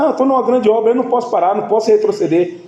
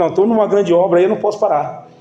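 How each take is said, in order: First: Higher, driving pulpit delivery; preaching emphatically. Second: Said in the usual way. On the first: Acted. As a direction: hammer the line home to the congregation. Preacher repeats the answer, escalating. (pregando com força, a voz subindo)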